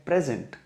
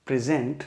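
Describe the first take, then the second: First: present stressed on its first syllable, PREZ-unt; PREZ-unt, second part reduced. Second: present stressed on its second syllable, pri-ZENT; pri-ZENT, second part stressed. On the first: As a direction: say present as the noun, weight on PREZ. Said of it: "और ये है present". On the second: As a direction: say present as the verb, weight on ZENT. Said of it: "अगर मैं आपसे कहूँ कि ये है". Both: Shown as a demonstration.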